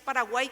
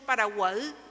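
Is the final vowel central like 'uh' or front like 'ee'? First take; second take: front; central. First: The final vowel is a front 'ee' sound. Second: The final vowel is a central 'uh' sound. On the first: "cuando escribimos en castellano, decimos" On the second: "¿Qué sonido tiene esa misma letra en guaraní? Uh, por eso decimos Paraguay"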